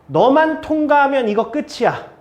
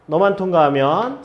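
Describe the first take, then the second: First: 통과하면 pushed, falling at the end; stress on passing. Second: 너만 lifted, rising tune; single out 너만 with a rise; stress on you. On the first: Teacher urging student 수아, stressing 통과하면. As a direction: lean on 통과하면 to urge her. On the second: Teacher pointing at 수아 alone, stressing 너만. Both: Shown as a demonstration.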